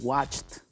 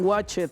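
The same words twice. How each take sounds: First: It is said with a final T sound. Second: It is said without a final T sound. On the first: The speaker calls it right. "van a decir watched con T" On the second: The speaker calls it wrong. "no digan watched"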